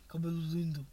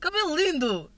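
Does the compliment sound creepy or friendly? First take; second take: creepy; friendly. First: It is said in a creepy, leering tone. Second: It is said warmly, with a smile.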